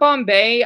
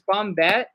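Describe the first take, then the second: First: The name ends in an open 'ay' sound. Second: The name ends in an 'et' sound. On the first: The speaker calls it wrong. "it's not Bombay. I know I said it wrong" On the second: The speaker calls it right. "It's Bombette. It's like it's French"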